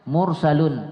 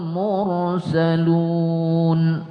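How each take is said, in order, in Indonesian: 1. Vokal akhir dipendekkan, tidak dipanjangkan. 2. Vokal akhir dipanjangkan sebelum konsonan terakhir. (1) "tapi jangan mursalun ... enggak sampai dah. Belum ada matnya" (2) "boleh. Udah boleh tuh"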